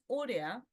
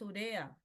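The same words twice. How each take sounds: First: The stress is not on the second-to-last syllable. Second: The stress is on the second-to-last syllable. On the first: The speaker calls it wrong. "No es urea" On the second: The speaker calls it right. "es urea, urea. lleva el acento en la penúltima"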